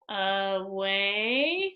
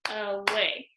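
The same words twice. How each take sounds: First: "away" stretched slowly, rising at the end; sounded out. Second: "away" in two short beats; clapped out. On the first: Teacher sounding out a word for pupils, "away" stretched slowly. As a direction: draw out both syllables of "away" with a rise. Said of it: "after I sound it out". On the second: Teacher clapping syllables after sounding it out, "away" in short beats. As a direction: say "a-way" briefly, one beat per syllable. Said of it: "I'm gonna do my clapping". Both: Shown as a demonstration.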